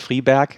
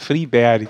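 First: The name is pronounced in a German way. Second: The name is pronounced in a Swedish way. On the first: The speaker calls it wrong. "Das ist nicht der Friberg" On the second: The speaker calls it right. "sondern der Friberg"

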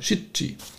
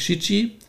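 First: The middle consonant is held long, doubled. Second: The middle consonant is short and single. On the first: The speaker calls it right. "sondern Shichi. Deswegen ist dort ein Doppel-C" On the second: The speaker calls it wrong. "das ist nicht Shichi"

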